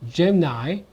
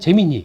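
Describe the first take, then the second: First: The name is said with American pronunciation. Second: The name is said with Korean pronunciation. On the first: "미국 발음은" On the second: "한국 발음은"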